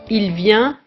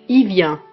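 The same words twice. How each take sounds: First: The L of il is clearly pronounced. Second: The L of il is dropped. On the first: "On le prononce il et le L est sonore" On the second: "on a tendance à ne pas prononcer le L de il devant certaines consonnes"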